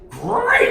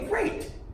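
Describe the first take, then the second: First: It is said loudly with big excitement. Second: It is said calmly with only mild energy. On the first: The reply does not match the other person's mood. The speaker calls it wrong. "like Tony the Tiger" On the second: The reply matches the other person's mood. The speaker calls it right. "Just above"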